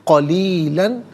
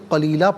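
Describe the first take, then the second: First: The word ends with an n sound. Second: The word ends with a long a vowel. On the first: The reading continues without a stop. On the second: The reading stops at this word.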